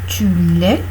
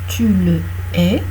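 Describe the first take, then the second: First: The vowel of 'le' is dropped. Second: The vowel of 'le' is pronounced. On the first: It means you are it. "Si tu ne prononces pas le E de le, ça donne tu l'es" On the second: It means you hate him. "du verbe haïr"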